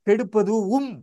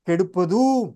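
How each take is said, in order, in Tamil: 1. கூடுதல் உயிர் தனி அசையாக உச்சரிக்கப்படுகிறது. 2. து அசை வெறுமனே நீட்டப்படுகிறது. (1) "அந்த உம் என்பதையும் சேர்த்து கெடுப்பதும் என்று படிக்கக்கூடாது" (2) "அந்த தூவை தான் நீட்டி உச்சரிக்க வேண்டும்"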